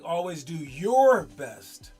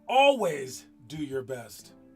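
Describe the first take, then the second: First: The word "your" carries the emphasis. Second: The word "always" carries the emphasis. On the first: Only one's own best matters, not someone else's. "don't worry about someone else's best. Worry about like your best" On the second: It should be done every single time. "that means like every single time"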